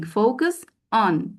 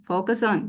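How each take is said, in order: First: "focus on" said slowly, the s running into "on"; slow linking demo. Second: Said in the usual way. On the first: Shown as a demonstration. Trainer modelling linking slowly for teachers. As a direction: draw out "focus on" so the link can be heard. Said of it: "connected speech feature linking". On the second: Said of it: "say it".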